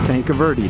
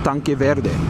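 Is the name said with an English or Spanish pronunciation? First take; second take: English; Spanish. First: It is said with an anglicized English pronunciation. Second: It is said with a Spanish pronunciation. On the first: This is how locals say it. "it's common for everyone in Tucson to call it" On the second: This is the original Spanish form. "if you were to speak it in Spanish, it's"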